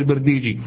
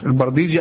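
First: The first syllable has the vowel i. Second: The first syllable has the vowel a. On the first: "وبالكسر" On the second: "مضبوطة بالفتح"

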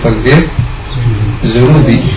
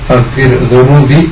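First: The consonant in zurubi is a plain z sound. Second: The consonant in zurubi is a soft th-like sound. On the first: The speaker calls it wrong. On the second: The speaker calls it right.

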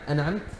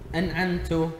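First: The nun is not clearly pronounced. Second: The final ta is pronounced with a u vowel. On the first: "عدم ظهور النون الساكنة" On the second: "ضم التاء"

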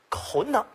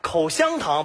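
First: The middle syllable is swallowed into two syllables. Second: All three syllables are clearly pronounced.

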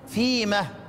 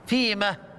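The two takes are said the same way.

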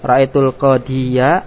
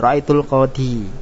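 First: The last word ends with an open -ya syllable. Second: The last word ends in -i with no -ya syllable. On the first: The reading continues without stopping here. "ini kalau bacaan wasol" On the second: The reading stops at this word. "Kalau bacaan waqafnya"

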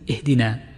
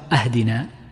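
First: The first vowel is an 'i' sound. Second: The first vowel is an 'a' sound. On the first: It asks for guidance. The speaker calls it right. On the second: It asks for a gift. The speaker calls it wrong.

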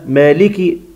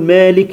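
First: The final k carries a short i vowel. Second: The final k is bare with no vowel. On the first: The speaker calls it right. "لازم مالكي" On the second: The speaker calls it wrong. "بيسكن الكاف"

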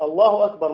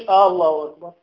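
First: The voice falls at the end, like a statement. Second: The voice rises at the end, like a question. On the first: It is a firm affirmation. The speaker calls it right. "أنت يجب أن تثبت الله أكبر" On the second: It sounds like asking whether it is true. The speaker calls it wrong. "مش الله أكبر"

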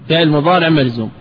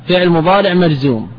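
Both takes have the same delivery.

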